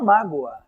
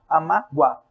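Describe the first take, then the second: First: The final vowels are joined into one syllable. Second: The final vowels are split into separate syllables. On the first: The speaker calls it right. "o finalzinho é junto" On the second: The speaker calls it wrong. "eu não conheço um ser humano que fale"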